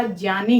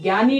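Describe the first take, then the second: First: ज्ञानी begun with a j glide, jyani; correct pronunciation demo. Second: ज्ञानी said gyani with a hard g; ज्ञानी begun with a hard g, gyani; wrong pronunciation demo. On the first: Teacher to students, modelling the right jyani. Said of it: "ज्ञानी होता है". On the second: Teacher to students, showing the wrong gyani. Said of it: "ज्ञानी नहीं होता". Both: Shown as a demonstration.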